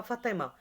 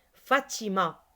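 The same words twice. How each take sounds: First: Fatima mispronounced as "Fatama", softer; wrong way. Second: Fatima said cleanly, fa-ti-ma; right way. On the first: Teacher imitating a pupil's misreading, Fatama. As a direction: say Fatima with an a in place of the i. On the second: Teacher giving pupils the correct reading, Fatima. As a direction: pronounce each syllable of Fatima correctly. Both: Shown as a demonstration. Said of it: "C'est pas Fatima".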